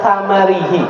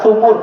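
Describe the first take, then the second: First: The word begins with 'tha' and an 'a' vowel. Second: The word begins with 'thu' and a 'u' vowel. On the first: This is the usual reading. "Dalam qiraah kita baca itu membaca tamarihi" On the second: This is another reading of the text. "kalau di sana qiraah warsh membaca sumur"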